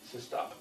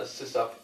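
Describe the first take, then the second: First: It is said with a t before op. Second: It is said without a t before op. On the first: "he just would reduce system operator to systop" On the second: "I actually have four separate pronunciations of sysop"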